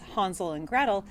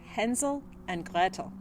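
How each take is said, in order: First: The names are pronounced the English way. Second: The names are pronounced the German way. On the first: "If you're an English speaker, you're probably thinking that that's" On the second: "I wanted to use the original German pronunciation"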